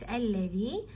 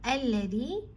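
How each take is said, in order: The two takes are said the same way.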